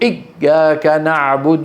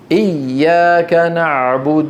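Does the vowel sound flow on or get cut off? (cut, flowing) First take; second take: cut; flowing. First: The vowel sound is cut off abruptly. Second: The vowel sound flows on without a break. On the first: The speaker calls it wrong. "لماذا يا اخي تقطع الصوت؟" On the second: The speaker calls it right. "الطريق مفتوح"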